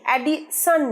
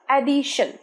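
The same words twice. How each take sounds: First: The middle consonant is a plain 's' sound. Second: The middle consonant is an 'sh' sound. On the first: The speaker calls it wrong. "অ্যাডিশন নয়" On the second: The speaker calls it right. "শ"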